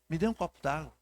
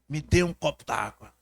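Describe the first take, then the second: First: It is said in a soft, pitiful, pleading tone. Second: It is said harshly, close to shouting. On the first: The listener is moved to pity. "Se você flexionar um pouco essa voz e fizer aquela carinha de coitadinha" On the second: The person is yelling at someone. "se eu posso ser um pouco mais áspero"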